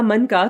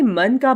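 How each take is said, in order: First: मन का as one word, मनका; मन का run together. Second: मन का as two separate words; slight break between मन and का; juncture in मन का. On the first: Teacher contrasting word boundaries, मन का fused into one word. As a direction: join मन का with no break. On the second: Teacher contrasting word boundaries, मन का kept apart. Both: Shown as a demonstration. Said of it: "दोनों प्रकार के वाक्यों का अंतर समझिए".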